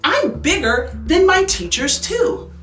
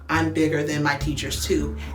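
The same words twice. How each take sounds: First: It is read in a lively, excited voice. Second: It is read in a plain, flat voice. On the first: The speaker calls it right. "add some excitement to that" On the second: The speaker calls it wrong. "instead of saying"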